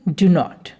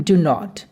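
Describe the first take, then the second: The two takes are said the same way.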